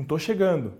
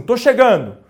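First: "tô chegando" softer and falling, without push; "tô chegando" low-key and soft; subdued intonation. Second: "tô chegando" louder and punched up; "tô chegando" said loud and emphatic; lively intonation. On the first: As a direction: say "tô chegando" quietly, as if unenthusiastic. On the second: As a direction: call out "tô chegando" brightly, with force. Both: Shown as a demonstration. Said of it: "Mudando a entonação de voz".

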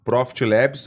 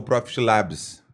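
First: "Labs" said as English-style "lebs"; English pronunciation. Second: "Labs" said as Brazilian "lábis"; Portuguese pronunciation. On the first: ("Labs" à inglesa, soando "lébis") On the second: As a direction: use an open Portuguese a in "Labs". ("Labs" à brasileira, soando "lábis") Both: Shown as a demonstration. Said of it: "Porque eu fiz assim, ó".

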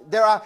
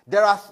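Both takes have the same delivery.

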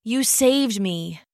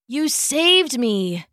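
First: Croaking. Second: Slow, hoarse croaked thanks; croaking. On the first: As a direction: whisper it again, voice spent. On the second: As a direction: croak it out, voice worn. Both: Acted. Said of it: "he croaked".

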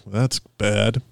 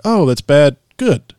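First: Disapproving. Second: High, rising "Good" of delight; delighted approval. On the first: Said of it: "people were like". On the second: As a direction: turn "bad" into a compliment, higher. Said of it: "everybody's like". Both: Retold or imitated.

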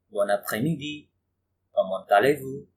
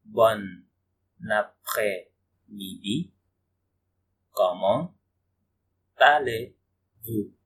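First: Said in the usual way. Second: Après-midi and allez-vous stretched very slowly with pauses; very slow, deliberate model pronunciation; slow teaching demo. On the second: Shown as a demonstration. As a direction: spell it out slowly for beginners. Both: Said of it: "teacher repeats phrase slowly".

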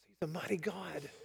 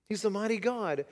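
First: Hushed. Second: Said in the usual way. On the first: Shown as a demonstration.

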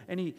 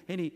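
No difference in how they are said.

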